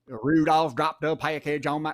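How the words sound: It is said in an American country accent. The speaker calls it wrong. "he thought I was going to do like a country"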